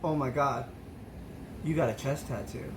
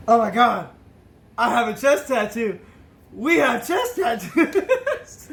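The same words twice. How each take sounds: First: Awed hush. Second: Louder, rising into a slow laughing cry; drunken excitement. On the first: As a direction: murmur it like you can't believe your eyes. Drunk discovering a tattoo. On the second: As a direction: blurt it out thrilled like a happy drunk. Drunk excitedly realizes shared tattoo. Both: Retold or imitated.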